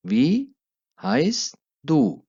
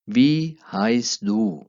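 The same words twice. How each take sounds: First: Said in the usual way. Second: Slow, drawn-out German model phrase; slow teaching demo. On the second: Shown as a demonstration. Teacher modelling German slowly for Hindi-speaking learners. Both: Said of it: "pronunciation पर गौर करना है".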